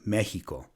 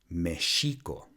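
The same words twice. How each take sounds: First: The x is sounded like h. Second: The x is sounded like sh. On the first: The speaker calls it wrong. "another way of mispronouncing it is to make it like an H sound" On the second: The speaker calls it right. "which should be pronounced Mexico"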